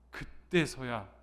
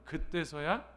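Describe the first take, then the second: First: 그때서야 stretched very slowly with a falling end; stressed, drawn out. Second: 그때서야 said again with a questioning rise; emphatic rising repeat. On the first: Preacher stressing 그때서야 for the congregation, slowly drawn out. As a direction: linger on 그때서야, slow and weighty. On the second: Preacher repeating 그때서야 to the congregation, rising at the end. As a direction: lift the end of 그때서야 upward. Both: Shown as a demonstration. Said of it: "이걸 강조하는 거예요".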